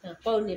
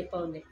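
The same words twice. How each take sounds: First: Said in the usual way. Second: Much softer, lower repeat of पाहून ये. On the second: Real, not acted. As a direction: drop the voice low on पाहून ये. Mother repeats it softly.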